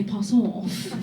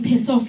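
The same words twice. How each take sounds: First: Piss off said as pass off, long ah; posh pass off. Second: Said in the usual way. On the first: Retold or imitated. Mocking her posh ex, pass off with a broad ah. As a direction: mimic a posh man saying pass off slowly. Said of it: "Instead of saying piss off". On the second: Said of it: "would pronounce his words wrong".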